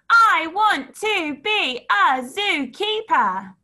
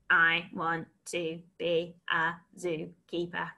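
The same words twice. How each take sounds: First: It is shouted in a loud voice. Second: It is spoken in a flat robotic voice. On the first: "Shout it" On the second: "And robot it"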